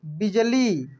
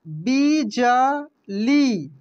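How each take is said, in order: First: Said in the usual way. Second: बिजली stretched very slowly, each syllable separate. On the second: Shown as a demonstration. (बिजली को धीरे धीरे बोलिए) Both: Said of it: "इसके बाद देखेंगे यहाँ पे".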